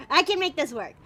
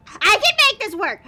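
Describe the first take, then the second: First: Said in the usual way. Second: Forceful, higher self-encouragement; loud self pep talk. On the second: Real, not acted. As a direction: psych yourself up out loud.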